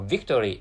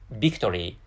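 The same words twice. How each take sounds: First: The word begins with a clear v sound. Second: The word begins with a b-like sound.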